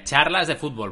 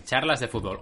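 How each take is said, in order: First: Charlas de Fútbol run together quickly and loosely; rushed mumble. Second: "Charlas de Fútbol" with every syllable crisp and separate; over enunciating. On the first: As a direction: say "Charlas de Fútbol" fast and slurred. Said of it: "Recuerda, ¿eh?". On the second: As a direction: carefully articulate "Charlas de Fútbol". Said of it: "vocaliza bien". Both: Shown as a demonstration.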